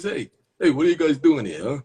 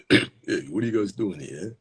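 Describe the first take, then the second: First: High, louder, swooping character voice; tough guy shooing kids. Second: Lightly voiced character confronting kids; a hint of a put-on guy voice; tough guy shooing kids. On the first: Acted. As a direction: challenge the kids in a raised put-on voice. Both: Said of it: "Does this guy have this voice?".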